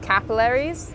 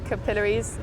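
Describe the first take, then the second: First: The word is pronounced the American way. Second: The word is pronounced the British way. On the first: "in America it's pronounced capillaries" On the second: "So we say it capillaries, like capillaries"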